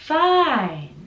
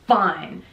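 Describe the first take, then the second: First: The word is long with an up-down tune. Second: The word is short with a flat tune. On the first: The speaker calls it right. "So it's longer and we have a little up down intonation" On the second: The speaker calls it wrong. "It's not fine"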